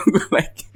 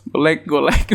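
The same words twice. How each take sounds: First: Breathy, unvoiced laughing words; whispered laugh. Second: Said in the usual way. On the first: Real, not acted. Liking comment while laughing. (berbisik sambil tertawa)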